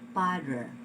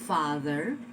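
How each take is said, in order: First: The word begins with a p sound. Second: The word begins with an f sound. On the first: The speaker calls it wrong. "because we do not have the sound of the f in our vernacular, our tendency is to say" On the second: The speaker calls it right. "instead of saying father"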